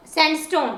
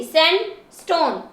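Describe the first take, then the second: First: Said in the usual way. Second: sandstone as sand, then stone; syllable by syllable. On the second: Shown as a demonstration. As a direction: separate the two parts of sandstone. Teacher splits word into syllables.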